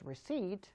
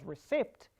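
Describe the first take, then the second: First: "receipt" as ri-SEET, p silent. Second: "receipt" with the p sounded, ri-SIPT; wrong pronunciation. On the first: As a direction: drop the p in "receipt". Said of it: "it's called as receipt". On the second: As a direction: pronounce the p in "receipt". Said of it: "It's not called as receipt". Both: Shown as a demonstration.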